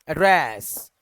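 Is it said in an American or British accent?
British. British accent, the last syllable drawn out.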